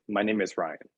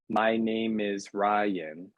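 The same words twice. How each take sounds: First: The words run together, slightly faster. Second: Each word is said separately. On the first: "a little bit faster and you kind of put the words together" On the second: "separating each and every one"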